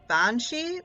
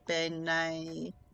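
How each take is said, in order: First: It is said the English way, 'banshee'. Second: It is said an Irish-sounding way, 'benai'. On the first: This is what English speakers call it. "Banshee is what we would call it in America" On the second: This is the original form of the word. "I think Benai is the original pronunciation"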